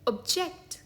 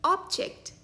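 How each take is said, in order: First: object as ub-JECT, stress on the second syllable; verb pronunciation. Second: object as OB-ject, high on the first syllable; noun pronunciation. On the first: Teacher showing the word for disagreeing, object as ub-JECT. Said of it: "इस शब्द का दूसरा उच्चारण है". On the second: Teacher showing the word for a thing, object as OB-ject. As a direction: hit "ob" at the front of object. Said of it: "इसका एक उच्चारण है". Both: Shown as a demonstration.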